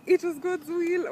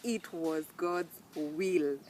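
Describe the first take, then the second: First: Much higher and much louder, incredulous mimicry of "It was God's will"; mocking repeat. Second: Said in the usual way. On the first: Shown as a demonstration. Vlogger mocking what relatives told her at the funeral, loud and incredulous. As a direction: throw the phrase back in disbelief. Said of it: "Number two, it was God's will". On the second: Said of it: "Number two".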